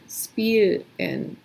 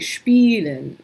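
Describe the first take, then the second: First: The word begins with a plain s sound. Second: The word begins with an sh sound. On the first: The speaker calls it wrong. "you might be tempted to say" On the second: The speaker calls it right. "but it's actually"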